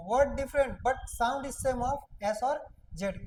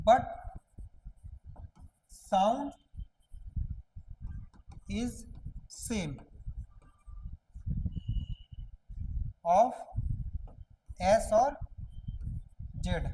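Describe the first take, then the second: First: Slow recap. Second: Slow word by word. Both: Shown as a demonstration. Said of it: "हम क्या बोले कि".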